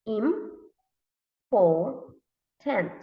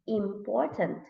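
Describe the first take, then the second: First: "important" very slowly as im, por, tant; long gaps inside "important"; read by syllables. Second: Said in the usual way. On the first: Shown as a demonstration. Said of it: "read by syllables". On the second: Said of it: "Read it together".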